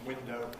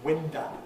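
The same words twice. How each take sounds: First: The word ends in a full 'oh' vowel. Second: The word ends in a weak schwa vowel. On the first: The speaker uses the standard form. "the standard pronunciation window" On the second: The speaker is uneducated. "the non-standard pronunciation window"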